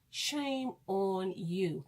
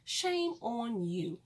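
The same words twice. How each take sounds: First: Low and very slow shame on you; heavy, slow repeated shame; lower, slower scolding. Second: Drawn-out shame on you; slow scolding. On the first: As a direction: drop it low and drag the shame. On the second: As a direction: lean hard and slow on shame. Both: Shown as a demonstration.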